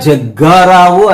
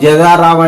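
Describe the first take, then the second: First: The g sound is held long and doubled. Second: The g sound is short and single. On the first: The speaker calls it right. "నిజంగా జగ్గారావు అనాలి. అంటే ఒత్తు ఖచ్చితంగా పలికినప్పుడే" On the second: The speaker calls it wrong. "జగారావు జగారావు అంటే పలుకుతాడా?"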